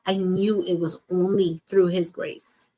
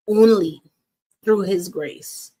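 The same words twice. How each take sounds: First: Said in the usual way. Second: Only punched out loud, then through his grace slow; stress on Only. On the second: Real, not acted. Coach telling viewers about God's grace, stress on Only. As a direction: hit the word Only hard and let the rest come slowly. Repeats the phrase for emphasis.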